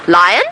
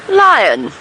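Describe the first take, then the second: First: It is said as a rising question. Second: It is said as a plain statement.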